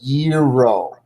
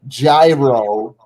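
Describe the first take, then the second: First: The word is said the original native way. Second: The word is said the English-speaker way. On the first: The speaker calls it right. "It's actually pronounced gyro" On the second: The speaker calls it wrong. "Americans and other English speaking people mispronounce this particular term as gyro"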